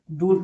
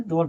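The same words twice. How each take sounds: First: डूल said with a long oo vowel; wrong reading. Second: डोल said with a clear o vowel, like dole; correct reading. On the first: Teacher shows students the wrong reading, long oo. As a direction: draw out the oo in डूल. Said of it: "लेकिन ये गलत हो जाएगा". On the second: Teacher gives students the correct reading, o vowel. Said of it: "इसे हम हमेशा डोल पढ़ते हैं". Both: Shown as a demonstration.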